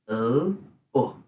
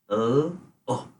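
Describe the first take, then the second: The two takes are said the same way.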